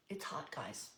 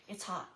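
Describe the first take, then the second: First: "It's hot" repeated lower and softer, leaning on "It's"; emphatic repeat. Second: Said in the usual way. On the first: Real, not acted. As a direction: sigh it out, stressing "It's hot".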